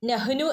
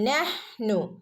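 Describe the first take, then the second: First: The h is followed by a short vowel. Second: The h is closed with no vowel after it. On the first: The speaker calls it wrong. "നഹ്നു എന്ന് ഓതരുത്" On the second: The speaker calls it right. "ഹഫ് സുക്കൂന് കൊടുക്കുക കേട്ടോ"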